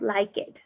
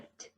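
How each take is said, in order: First: The ending is an extra 'id' syllable. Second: The ending is a short T sound. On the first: The speaker calls it wrong. "not like it" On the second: The speaker calls it right. "we say liked"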